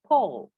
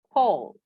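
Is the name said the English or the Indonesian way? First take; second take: English; English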